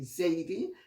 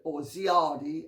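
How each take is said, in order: First: The name is said in the Jamaican way. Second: The name is said in the Western way. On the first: "in Jamaica they say Zaidi" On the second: "as it's sometimes called in the West"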